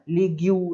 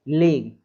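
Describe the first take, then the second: First: A 'u' sound follows the g. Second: No sound follows the g. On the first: The speaker calls it wrong. "ऐसा नहीं बोलना है" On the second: The speaker calls it right. "लीग है ना"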